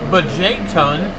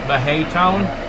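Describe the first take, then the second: First: The J is said with a J sound. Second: The J is said with an H sound.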